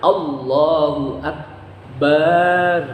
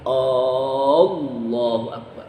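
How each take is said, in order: First: The final 'bar' vowel is drawn out long. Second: The first vowel 'A' is drawn out long. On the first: It calls God a drum. "Berarti panjang. Enggak boleh juga" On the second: It asks whether God is great. "A-nya panjang. Enggak boleh"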